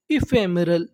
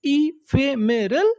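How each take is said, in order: First: Said in the usual way. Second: "ephemeral" slowly in pieces, lifting at the end; broken into syllables. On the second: Shown as a demonstration. Teacher prompting learners to recall the word, syllable by syllable. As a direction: stretch "ephemeral" out syllable after syllable. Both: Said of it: "टुकड़ों में तोड़-तोड़ के पढ़ना है".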